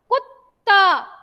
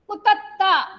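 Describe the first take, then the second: First: The middle t is clipped with no vowel. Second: The middle t is a full syllable with a vowel. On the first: The speaker calls it right. "इसीलिए हम इसको जल्दी से बोल देते हैं" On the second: The speaker calls it wrong. "अगर हम पूरा त बोलेंगे"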